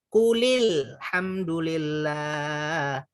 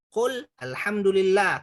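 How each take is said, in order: First: The first word takes an 'i' and links on. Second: The first word ends bare, with no added vowel.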